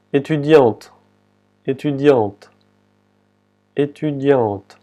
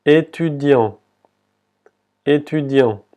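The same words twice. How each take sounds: First: "Étudiante" with the final T clearly sounded, E silent; "Étudiante" closing on an audible T after the nasal vowel; pronounced final T. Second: "Étudiant" ending on the nasal vowel, final T silent. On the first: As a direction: say feminine "Étudiante" in French, ending on T. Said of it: "se pronuncia la T". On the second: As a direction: say "Étudiant" in French without the last T. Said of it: "la última T no se pronuncia". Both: Shown as a demonstration.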